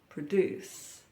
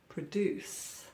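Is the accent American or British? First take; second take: American; American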